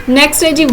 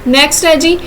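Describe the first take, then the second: The two takes are said the same way.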